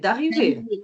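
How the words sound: The voice falls at the end, like a statement. It is a plain statement. The speaker calls it right.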